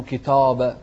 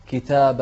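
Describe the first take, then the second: First: كتاب with a thick, rounded "taw"; faulty "ki-taw-ba" for كتاب; wrong heavy vowel. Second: كتاب with a thin, open "taa"; light long a. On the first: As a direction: darken the alif in كتاب. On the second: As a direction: keep the alif in كتاب light. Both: Shown as a demonstration. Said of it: "مو كتاب".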